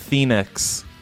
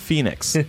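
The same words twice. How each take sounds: First: The word begins with a th sound. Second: The word begins with an f sound. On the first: The speaker calls it wrong. "T-H instead of P-H" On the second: The speaker calls it right. "Of the Phoenix. Not Phoenix"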